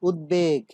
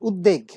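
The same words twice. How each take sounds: First: The 'b' sound after the 'd' is pronounced. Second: The 'b' sound after the 'd' is dropped. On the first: The speaker calls it right. "এই শব্দটির উচ্চারণ কিন্তু উদ্বেগ" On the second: The speaker calls it wrong. "আমরা অনেকেই আছি তারা বলে থাকি যে উদ্বেগ"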